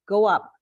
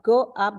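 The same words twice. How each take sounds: First: The two words are linked together. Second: The two words are said separately. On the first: The speaker calls it right. "like linking to the next sound" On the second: The speaker calls it wrong. "Not go up"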